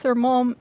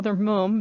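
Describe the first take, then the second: First: Said in the usual way. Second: "mom" said as British "mum"; "mom" rhymed with "hum", British style. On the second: Shown as a demonstration. Corrects to UK pronunciation.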